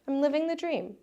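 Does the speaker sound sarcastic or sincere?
sincere. It is said in a sincere, happy tone. The speaker is truly happy with life. "you feel so happy about your life"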